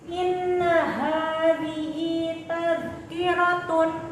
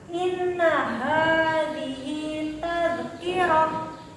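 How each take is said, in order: First: The last word keeps its full -tun ending. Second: The last word ends in a soft h sound. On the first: The reading continues without stopping. "sebelum diwakafkan" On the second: The reader stops on this word. "Ketika diwakafkan"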